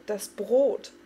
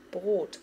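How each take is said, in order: First: A loud alarmed shout of Brot; cried out. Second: Said in the usual way. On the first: A narrator's reading. Farik warning everyone about the bread, shouting. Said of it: "schrie Farik".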